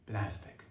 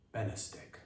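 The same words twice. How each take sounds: First: Soft, low "Benastic", stressed on NAS; stress on second syllable. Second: Very soft "Benastic", stressed on BEN; stress on first syllable. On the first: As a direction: muse over "Benastic" as buh-NAS-tic. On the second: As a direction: muse over "Benastic" as BEN-uh-stic. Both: Shown as a demonstration. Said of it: "I don't know if it's Benastic or Benastic".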